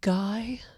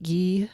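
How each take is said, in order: First: The name is said with an American pronunciation. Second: The name is said with a French pronunciation. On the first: "so I'm going with Guy, like Guy Fieri" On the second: "I think Guy's the French way to pronounce it"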